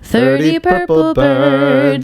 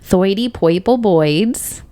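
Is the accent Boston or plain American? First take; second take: plain American; Boston. First: It is said in a plain American accent. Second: It is said in a Boston accent.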